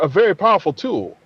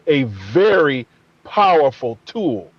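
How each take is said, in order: First: The phrase is said flatly, without extra emphasis. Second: The phrase is said with strong emphasis. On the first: It simply states the tool is powerful. "I could have said" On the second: It stresses how powerful the tool really is. "but I said a very powerful tool"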